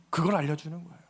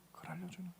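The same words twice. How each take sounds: First: Said in the usual way. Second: "그걸 알려주는 거예요" repeated much softer, almost to oneself; soft echo. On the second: Shown as a demonstration. Preacher repeating his point to the congregation, hushed echo. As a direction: let the repeat of "알려주는" fall away to a hush.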